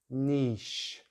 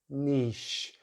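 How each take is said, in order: No difference in how they are said.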